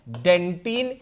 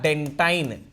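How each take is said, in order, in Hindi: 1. आखिरी अक्षर में छोटी 'i' की आवाज़ है। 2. आखिरी अक्षर में लंबी 'eye' की आवाज़ है। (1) "कोई डेंटिन कह लेता है" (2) "कोई डेंटाइन कह लेता है"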